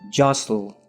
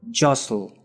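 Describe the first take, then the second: The two takes are said the same way.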